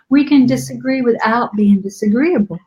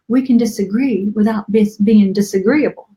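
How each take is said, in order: First: It is said in a Southern American accent. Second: It is said in the speaker's ordinary accent.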